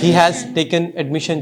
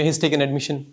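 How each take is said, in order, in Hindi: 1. 'He has' दो पूरे शब्दों की तरह बोला जाता है। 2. 'He has' एक तेज़ छोटे अक्षर में बदल जाता है।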